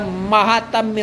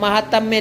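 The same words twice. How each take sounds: First: The first vowel is long. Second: The first vowel is short. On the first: The speaker calls it right. "महात्म्य होता है ... मैं वो माँ में चेंज हो जाएगा" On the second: The speaker calls it wrong. "महात्म्य नहीं होता"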